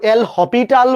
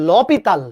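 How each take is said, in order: First: Said as 'el hopital', with no s sound. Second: Said as 'lopital', with no separate 'el'. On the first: "কেউ কেউ এল হপিটাল বলে" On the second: "আসল উচ্চারণ হচ্ছে লপিতাল"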